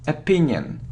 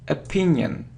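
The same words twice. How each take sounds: First: The word begins with a weak uh vowel. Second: The word begins with a weak uh vowel.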